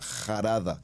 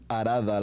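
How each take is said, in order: First: The word begins with a harsh J sound. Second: The word begins directly with a vowel sound. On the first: "la pronunciaríamos como una J" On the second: "más que Arada"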